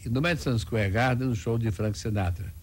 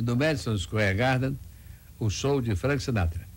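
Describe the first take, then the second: First: The sentence is said at a faster pace. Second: The sentence is said at a normal pace.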